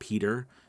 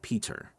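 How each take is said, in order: First: The middle consonant sounds like a soft D. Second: The middle consonant is a crisp T. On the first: "we are going to use D's and replacing the T's" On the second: "with a T"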